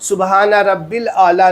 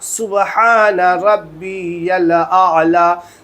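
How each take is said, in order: First: The middle word is said as rabbil. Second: The middle word is said as rabbiyal. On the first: The speaker calls it wrong. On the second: The speaker calls it right.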